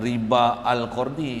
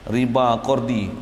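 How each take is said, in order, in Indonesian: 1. 'Al' diucapkan sebagai suku kata tersendiri. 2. 'Al' dilebur dan hilang dalam kata yang bersambung. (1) "Kita tak bacalah riba al-qardi kan" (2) "Hamzah wasal"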